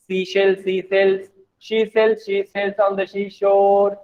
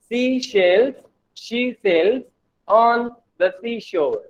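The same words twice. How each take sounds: First: Even, level-pitched rattle through a tongue twister; fast tongue-twister demo. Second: Tongue twister piece by piece, with pauses; measured tongue twister. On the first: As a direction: run the tongue twister together without breaks. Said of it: "Like this way". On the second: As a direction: break the tongue twister into slow, separate chunks. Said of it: "Try to read fastly". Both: Shown as a demonstration.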